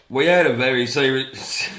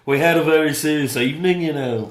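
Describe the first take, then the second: First: Put-on louder, faltering go at a British accent; unsure mock-British delivery; attempted British accent. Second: Loud, higher mock-Liverpool voice; comic Scouse impression, pitched up; Liverpool accent. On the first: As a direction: start a put-on British voice, then break off. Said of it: "I can't do it. I'm just trying to do". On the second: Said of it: "I'll do Liverpool".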